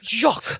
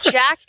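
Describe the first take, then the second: First: The name is said with a French accent. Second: The name is said with a plain English accent. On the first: This is the second horse. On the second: This is the first horse.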